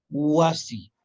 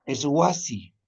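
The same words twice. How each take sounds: First: Wasi slow, falling tune; teacher repeats Wasi. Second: Wasi with a w sound, stress on wa; teacher models wasi; modeling wasi. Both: Shown as a demonstration.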